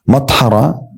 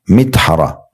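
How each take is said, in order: First: The first vowel is an 'a' sound. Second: The first vowel is an 'i' sound. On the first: "dengan mim dibaca fathah" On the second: "dan boleh juga dengan kasra"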